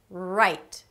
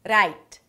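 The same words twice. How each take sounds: First: The R is a held American R, tongue untouched. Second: The R is a short tapped Spanish R. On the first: The speaker calls it right. "You want to pull back your tongue and hold it out" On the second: The speaker calls it wrong. "So you don't want that"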